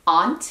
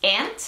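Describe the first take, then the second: First: "aunt" said as AHNT, open back vowel, rising; questioning "aunt", rhyming with haunt; British-like pronunciation. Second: "Aunt" said like the insect ant, rising; questioning "Aunt", rhyming with pant; "ant" pronunciation. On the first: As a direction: offer "aunt" with a long AH. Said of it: "como a inglés británico". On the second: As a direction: offer "Aunt" with a short front A, as ANT. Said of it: "¿ustedes cómo lo pronunciarían?". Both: Shown as a demonstration.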